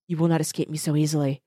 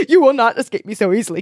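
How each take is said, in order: First: Soft, breathy whispered threat; whispered vow. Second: Defiant declaration. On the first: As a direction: hush it like a secret promise. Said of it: "he whispered". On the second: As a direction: throw the threat at her. Hero vows to villain. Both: Acted.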